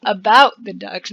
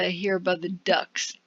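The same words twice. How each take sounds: First: "About" stressed, a little louder. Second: Said in the usual way. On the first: Shown as a demonstration. Player correcting their misread line, stressing "About". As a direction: lean on "About" to fix the misread. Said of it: "not let's hear the ducks". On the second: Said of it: "About the ducks, not let's hear the ducks".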